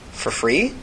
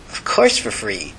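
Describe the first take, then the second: First: "For free?" with "free" rising sharply; questioning. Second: Slow, low answer with "course" drawn out; reassuring answer. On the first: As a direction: ask it as a question, voice lifting on "free". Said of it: "she asked". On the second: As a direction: lean on "course" in a slow, lower-pitched reply. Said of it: "he smiled". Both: Acted.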